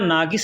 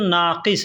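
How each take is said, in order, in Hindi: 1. बीच का व्यंजन कड़ा g है। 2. बीच का व्यंजन गहरा पीछे वाला q है। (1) "लेकिन बोलने के लिए लोग नागस का इस्तेमाल करते हैं, नागस या नागिस ऐसे बोलते हैं" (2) "नाक़िस अरबी में लिखेंगे ना तो नाक़िस लिखेंगे, नून, अलिफ़, क़ाफ़ और स्वाद"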